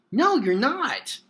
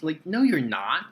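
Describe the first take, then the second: First: "no, you're not" much higher and louder, slowed, each word hit; exasperated, drawn-out protest; emphatic denial. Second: Said in the usual way. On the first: Real, not acted. Reviewer rejecting Batman's line, exasperated and emphatic.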